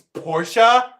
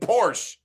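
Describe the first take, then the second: First: The word ends with a sounded final syllable. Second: The word ends without its final syllable. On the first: The speaker calls it right. "don't you know it's Portia?" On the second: The speaker calls it wrong. "not pronouncing that last syllable"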